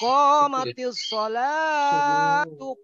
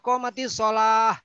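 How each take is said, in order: First: The word ends with a linked 'tu' sound. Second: The word ends in a stopped 'h' sound. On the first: The speaker calls it right. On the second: The speaker calls it wrong. "salah itu"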